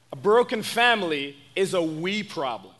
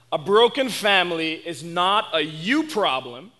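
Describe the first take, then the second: First: "we" picked out as the correction; stress on WE. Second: "you" picked out against the rest; stress on YOU. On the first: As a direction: lean on "we", then fall away. Contrasts we with you problem. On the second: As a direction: lean on "you" with a lifted pitch. Contrasts you with we problem. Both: Real, not acted.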